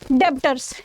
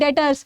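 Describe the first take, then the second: First: It is said with a b sound. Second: It is said with no b sound. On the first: The speaker calls it wrong. "डेप्टर्स नहीं होता है बेटा" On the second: The speaker calls it right. "ये बी ये silent होता है"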